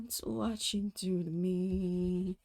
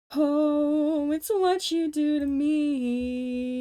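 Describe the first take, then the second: First: Said in the usual way. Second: High, loud hammed-up Muppet singing. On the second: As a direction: belt it like a puppet character. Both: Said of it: "I can't do the Muppets!".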